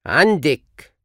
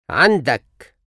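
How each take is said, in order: First: عندك said andek, ending in -ek; feminine you form. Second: عندك said andak, ending in -ak; masculine you form. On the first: Teacher drills the feminine form of you have. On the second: Teacher drills the masculine form of you have. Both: Shown as a demonstration.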